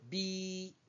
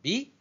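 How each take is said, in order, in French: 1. La voyelle est tenue longue. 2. La voyelle est courte. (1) "La noire plus la bleue, plus long" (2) "la noire toute seule"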